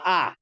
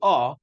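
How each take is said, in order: First: The vowel is given the Sephardic kamatz sound. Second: The vowel is given the non-Sephardic kamatz sound. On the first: The speaker calls it wrong. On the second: This is the claimed proper kamatz. The speaker calls it right. "it should be ah"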